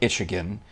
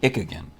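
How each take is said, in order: First: The first syllable is said with a 'ch' sound. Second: The first syllable is said with a 'k' sound. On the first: "it looks like Itchigan" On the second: "would I pronounce it like ichthyology"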